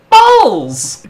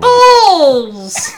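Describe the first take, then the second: First: It is said in his normal voice. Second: It is said in a put-on funny voice.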